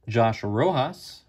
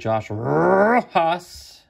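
First: The name is said in a plain everyday way. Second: The name is said like a TV announcer.

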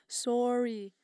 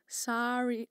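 First: The word is said with a Canadian accent. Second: The word is said with an American accent. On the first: "I said that so Canadian" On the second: "How do Americans say it?"

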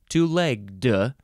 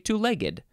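First: The ending is a plain d sound. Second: The ending is an extra id syllable. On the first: "because it's after a G, you just say duh" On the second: "a lot of people say two-legged, like I did"

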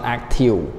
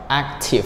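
First: The word ends with a V sound. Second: The word ends with an F sound. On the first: The speaker calls it wrong. "not active" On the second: The speaker calls it right. "VE here, it sounds like letter F"

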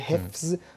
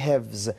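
First: The consonant before z is an f. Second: The consonant before z is a v. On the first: This is the standard form. "به جای حفظ" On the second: This shows the speaker comes from western Iran. "حرف ف رو قبل از ز در موقع تلفظتون تبدیل به واو میکنه"

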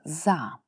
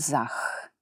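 First: The word ends with a long drawn-out vowel. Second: The word ends with a harsh 'ch' sound. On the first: The speaker calls it right. "Долго читаем" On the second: The speaker calls it wrong. "только не sehen и не zach"

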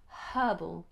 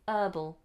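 First: The word starts with an audible h sound. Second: The word starts with a vowel, no h sound. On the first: "in British English we aspirate the H" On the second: "Americans say herbal"

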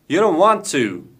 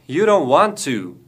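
The two takes are said the same way.

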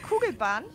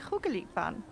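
First: It is said in plain Standard German. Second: It is said as a Swiss-style diminutive. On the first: This is the ordinary word. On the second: Someone else says it this cute way. "sagt er zum Beispiel"

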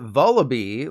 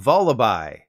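First: The final syllable sounds like 'bee'. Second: The final syllable sounds like 'bye'. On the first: The speaker calls it wrong. "I've always called it Vullaby, like Samantha Bee" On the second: The speaker calls it right. "it's actually Vullaby. That's because Vullaby is a combination of vulture and lullaby"

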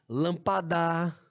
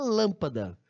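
First: The stress falls on a shifted syllable. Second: The stress falls on the usual syllable. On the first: The speaker calls it wrong. "Eu posso cantar ela" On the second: The speaker calls it right. "O certo é lâmpada"

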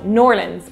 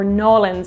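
First: The name is merged into two quick syllables. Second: The name is shortened further, with the r dropped. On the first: "corrected in the comments" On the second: "if you're trying to be even more authentic"

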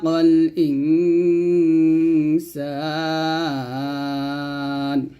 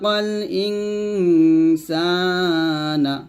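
First: The vowel before n is long; the n ends bare. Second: A short vowel is heard after the final n. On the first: The reader stops at this word. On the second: The reading continues without stopping.

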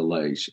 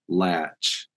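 First: The syllable has a long 'ay' vowel. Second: The syllable has a short 'a' vowel. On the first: This is how people from elsewhere say it. "instead of lache" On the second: This is how people from central or southern Appalachia say it. "If you're from central or southern Appalachia, you tend to say like latch"

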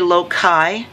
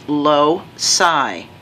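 First: The c is not pronounced as an s sound. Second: The c is pronounced as an s sound. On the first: The speaker calls it wrong. "You might hear some people say loci" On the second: The speaker calls it right. "ci generally says sa, like in city"

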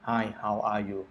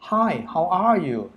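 First: It is said slowly and flatly, without intonation. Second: It is said with lively intonation and feeling. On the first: The speaker calls it wrong. "อ่านช้าๆชัดๆแบบเรียบขนาดนั้น" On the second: The speaker calls it right. "เนี่ยคือโทนของเสียงแล้วก็ accent"

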